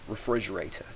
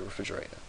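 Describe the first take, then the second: First: The word is said in its full form. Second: The word is said in a shortened form. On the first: "Instead of just saying refrigerator" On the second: "you just say refrigerator. It's faster to say"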